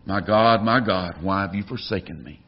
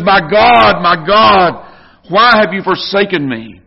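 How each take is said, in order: First: Softer, lower, fading lament; quiet, broken plea from the cross; hushed anguish. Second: Louder, anguished cry to God; pleading, anguished outcry; agonized cry. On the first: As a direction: let the cry sink to a hush. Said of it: "he cries from the cross". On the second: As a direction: cry it out in agony. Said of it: "Do you hear the agony?". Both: Acted.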